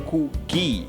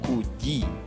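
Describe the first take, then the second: First: The g is a hard g sound. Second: The g sounds like a j. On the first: The speaker calls it wrong. "Don't say kugi" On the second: The speaker calls it right. "just say kuji"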